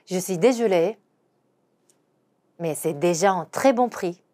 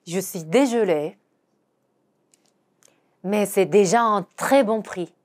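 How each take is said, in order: First: Slow, "très" stressed; slow model sentence; slow repeat. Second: Slow apologetic French; slow teaching read; slow demo pronunciation. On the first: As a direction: repeat slowly. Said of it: "한 번 더". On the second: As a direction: model the seller's line slowly. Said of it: "이렇게 말하는 거죠". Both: Shown as a demonstration.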